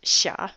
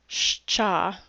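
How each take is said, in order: First: A plain sh sound comes before the vowel. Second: A ch-like sound follows the sh sound. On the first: This is the modern Russian pronunciation. "it's pronounced Sha in modern Russian" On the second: This is the church pronunciation. "the church pronunciation is Scha"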